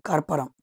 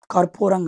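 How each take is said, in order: First: కర్పరం said with a short a, kar-pa-ram, no long u; కర్పరం with three short syllables, corrected form; correct term, short vowels. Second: కర్పూరం said with a long u, kar-POO-ram, the wrong one; కర్పూరం with a stretched middle u as the mistaken form; wrong word, not the term. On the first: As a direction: say కర్పరం crisp and short, the right word. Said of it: "కర్పూరం కాదు, కర్పరం". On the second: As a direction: say కర్పూరం with a long ూ to show the word students confuse. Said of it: "కర్పూరం కాదు". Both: Shown as a demonstration.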